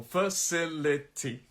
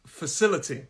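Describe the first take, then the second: First: "Facility" very slow, one syllable at a time; four separate syllables. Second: Said in the usual way. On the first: Shown as a demonstration. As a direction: break "Facility" into four clear beats. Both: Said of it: "Four syllable".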